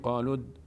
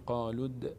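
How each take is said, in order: First: The final d ends in a plain, unreleased stop. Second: The final d is released with a bouncing echo. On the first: The speaker calls it wrong. "نمیگیم قالود" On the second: The speaker calls it right. "اینجا مثلا میشه قالود"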